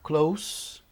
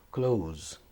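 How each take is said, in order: First: The word ends with a hissing S sound. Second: The word ends with a buzzing Z sound. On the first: Near or nearby. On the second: To shut something.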